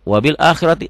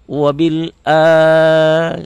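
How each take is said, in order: First: The first vowel of akhirati is cut short. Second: The first vowel of akhirati is held long. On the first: The speaker calls it wrong. "Kalau dibaca tiba-tiba wabil akhirati salah" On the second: The speaker calls it right. "A ini panjang"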